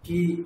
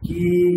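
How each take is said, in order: First: The vowel is held only briefly. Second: The vowel is held about twice as long. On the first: "হ্রস্বের জন্য আমি যতটা সময় দেবো" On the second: "বেশি সময় যেন দীর্ঘের জন্য যায়"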